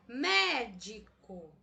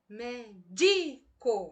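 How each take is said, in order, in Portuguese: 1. A tônica está na primeira sílaba. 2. A tônica está na segunda sílaba. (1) "Até agora eu intensifiquei a sílaba me" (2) "Se eu colocar a tonicidade na palavra, na sílaba di"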